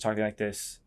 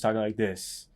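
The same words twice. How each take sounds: First: The pitch stays level at the end. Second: The pitch falls at the end. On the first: The speaker sounds neither seeking nor commanding. "neutral is just talking like this" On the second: The speaker sounds certain and authoritative. "Breaking is talking like this"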